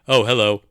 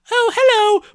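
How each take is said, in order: First: It is said in the speaker's normal voice. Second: It is said in a slightly higher put-on voice. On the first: The character's girl voice has been dropped. "forgot to do the voice" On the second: The character's girl voice is being kept up. "doing a very, very slightly higher voice, but also only sometimes. Sometimes Martha says"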